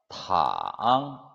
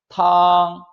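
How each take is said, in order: First: The pitch dips very low, then rises. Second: The pitch stays high and level. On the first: It means to lie down. "삼성" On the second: It means soup. "일성"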